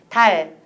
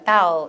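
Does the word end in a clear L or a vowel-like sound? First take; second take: clear L; vowel-like. First: The tongue stays forward, ending in clear L. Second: The tongue pulls back, ending like a vowel. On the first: The speaker calls it right. "혀 가져가지 말고 그대로 멈춰라. 앞에서 보여달라고 해요" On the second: The speaker calls it wrong. "외국인들이 하는 다우. 이건 뭐냐면 발음한 다음에 얼른 뒤로 가져가는 거"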